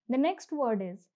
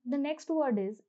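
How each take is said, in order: Both takes have the same delivery.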